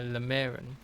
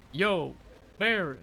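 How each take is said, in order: First: Lemarin said with a clear L, unsure; 1 tentative pronunciation. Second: Yo, Marin with the double L sounded as a Y, Marin rising high; Welsh double L as Y. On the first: Guessing a Welsh place name, reading Lemarin with an L. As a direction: try Lemarin as written, L at the start. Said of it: "I don't know how to pronounce that". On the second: Correcting the Welsh name to Yo, Marin. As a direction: say it Yo, Marin, the Y replacing the L. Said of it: "Double L's are usually pronounced as a Y". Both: Shown as a demonstration.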